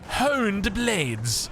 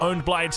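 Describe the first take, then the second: First: The first word starts with an H sound. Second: The first word starts without an H sound. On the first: "We don't say Honed Blades" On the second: "the H is silent"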